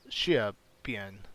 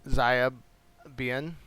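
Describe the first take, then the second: First: The name begins with an sh sound. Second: The name begins without an sh sound. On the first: The speaker calls it right. "I believe is the way to pronounce that. ... the X is a like an S H sound" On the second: The speaker calls it wrong. "I'm sorry"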